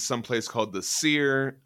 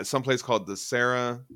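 First: "Seer" said as one syllable, like "sear"; "Seer" with a long ee vowel; mistaken pronunciation. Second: "Serra" said in two syllables, SEH-ruh; "Serra" rhyming roughly with "terra"; corrected French name. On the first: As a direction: say "Seer" to rhyme with "here". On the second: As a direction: say "Serra" with a short e, then "ruh". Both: Real, not acted. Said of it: "it's pronounced Sarah".

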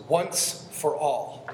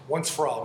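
First: "once for all" said slowly, each word set apart; "once for all" drawn out slowly for the notes; slow emphasis. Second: Said in the usual way. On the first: Shown as a demonstration. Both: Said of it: "Now circle the words".

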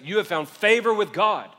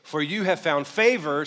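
First: "favor" pressed louder, "you have found favor with God" raised and proclaimed; emphatic repeat. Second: Said in the usual way. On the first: Shown as a demonstration. Pastor repeating the angel's blessing to the church, emphatic. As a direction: hit it harder the second time. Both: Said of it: "second time he says it".

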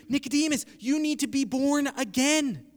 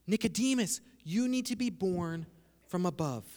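First: Higher, firm delivery through AGAIN; "born again" said high and in one run; emphatic first reading. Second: Softer and lower, pausing before "from above"; hushed second reading. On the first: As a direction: press "born again" as the obvious meaning, pitched up. First of two readings contrasted. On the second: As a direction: let "from above" drop low and soft after a pause. Second of two readings contrasted. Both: Shown as a demonstration.

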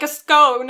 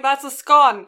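First: Scone rhyming with "stone"; "scone" as "skone", punched louder; long-O scone. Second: Scone rhyming with "gone"; "scone" as "skon", stressed; short-O scone. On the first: Others' long-O pronunciation quoted. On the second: Arguing scone pronunciation. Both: Retold or imitated.

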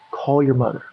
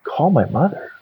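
First: "Call your mother." falling, as a settled order; calm repeated instruction. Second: "Call my mother?" lifted into a question; puzzled echo question. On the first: Voice in the cell answers his question, calmly firm. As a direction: repeat it evenly, closing downward on "mother". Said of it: "the same voice whispers to me". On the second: Man questions the voice in his cell, puzzled. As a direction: query it back, pitch rising at the end of "mother". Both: Retold or imitated.

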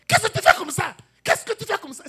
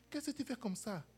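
First: Very high, loud accusing shout; sharp shouted question. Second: Said in the usual way. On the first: Shown as a demonstration. Preacher acting out a shouting wife for the congregation, loud accusing shout. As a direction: fling the question like an angry spouse. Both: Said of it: "C'est différent de".

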